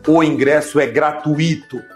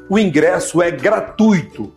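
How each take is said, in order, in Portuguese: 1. O 'i' é separado e fica tônico. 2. O 'ui' fica junto, em uma sílaba tônica só. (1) "Você não pode falar" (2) "Por exemplo"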